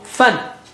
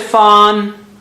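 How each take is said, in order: First: The vowel is cut short. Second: The vowel is drawn out long. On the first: The speaker calls it right. "no, fan" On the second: The speaker calls it wrong. "So don't say fan"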